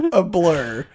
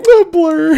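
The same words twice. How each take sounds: First: Said in the usual way. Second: Repeats it with a high laugh. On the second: Real, not acted. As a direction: laugh through the word blur. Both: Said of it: "A what?".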